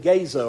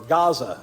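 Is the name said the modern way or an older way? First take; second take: older; modern. First: The name is said with an older pronunciation. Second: The name is said with today's usual pronunciation.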